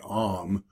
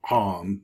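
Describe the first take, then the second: First: It starts with a plain, soft vowel. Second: It starts with a harder throat sound. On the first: The speaker calls it wrong. "most people just say Om" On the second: The speaker calls it right. "it should be Om, a little harder"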